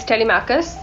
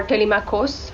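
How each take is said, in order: First: Telemachus, finishing on "kus"; Telemachus ending in -us. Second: Telemachos, finishing on "kos"; Telemachos ending in -os. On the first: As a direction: say Telemachus with a short, unstressed -us ending. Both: Shown as a demonstration. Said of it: "however you want to say it".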